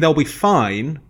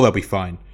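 First: It sounds hesitant and unfinished, leading into a but. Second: It sounds relaxed and sure, closing off the point. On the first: The team is probably safe, with reservations. "Arsenal, yeah, it's, I mean, they'll be fine, but" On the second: The team is clearly safe. "So Wolves, okay, it's, oh"

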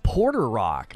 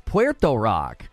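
First: The first word sounds like 'porter'. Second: The first word sounds like 'pwer-toe'. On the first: The speaker calls it wrong. "Everybody calls him Porter Rock" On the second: The speaker calls it right. "it's Puerto Rock"

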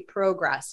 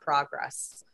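First: The word has a Canadian pronunciation. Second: The word has a non-Canadian pronunciation. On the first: "like the Canadians say. They say progress" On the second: "not progress"

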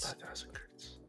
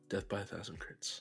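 First: The phrase is said at a quiet volume. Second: The phrase is said at a louder volume. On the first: The speaker calls it wrong. "No, that's too quiet" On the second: The speaker calls it right.

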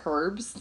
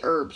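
First: It is said with a British accent. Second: It is said with an American accent.

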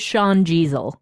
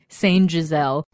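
First: The first name sounds like 'shawn'. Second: The first name sounds like 'saint'. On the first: The speaker calls it right. "when their name is Sean Jeezel" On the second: The speaker calls it wrong. "James has wanted us to call this person Saint Jeezel"

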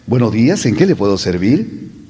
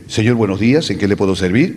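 First: It is said warmly, with a pleasant smiling expression. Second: It is said flatly, without a pleasant expression.

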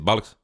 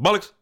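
First: It is said quietly. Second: It is said loudly.

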